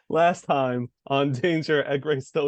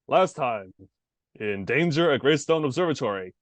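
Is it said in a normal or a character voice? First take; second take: normal; character. First: It is said in his normal voice. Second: It is said in a barbarian character voice.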